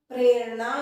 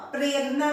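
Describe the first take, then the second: First: प्रेरणा with a retroflex ण, louder; teacher giving the right form; correct retroflex prerna. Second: प्रेरणा with a dental न, the error; the wrong way, dental n; teacher showing the error; wrong prerna, dental n. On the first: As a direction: curl the tongue for ण in प्रेरणा. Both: Shown as a demonstration. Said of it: "प्रेरणा नहीं".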